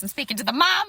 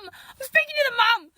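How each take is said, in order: First: Said in the usual way. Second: Higher, louder, incredulous repeat; emphatic disbelief. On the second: Shown as a demonstration. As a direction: stress the absurdity of it. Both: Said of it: "repeated with emphasis".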